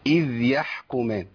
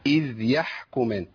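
Both takes have the same delivery.

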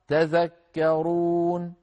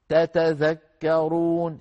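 First: It starts with a single t sound. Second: It starts with two separate t sounds. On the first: One of the two t's has been dropped. "شيلتا تبقى تذكرون" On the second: This is the original full form. "هذا الأصل"

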